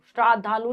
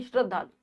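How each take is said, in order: First: श्राद्धालु with a long आ in the first syllable; mispronounced श्राद्धालु with long श्रा; wrong pronunciation. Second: श्रद्धालु with a short अ in श्र; teacher models the right श्रद्धालु with short श्र; correct pronunciation. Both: Shown as a demonstration. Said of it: "श्राद्धालु नहीं".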